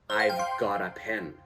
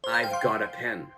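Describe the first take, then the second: No difference in how they are said.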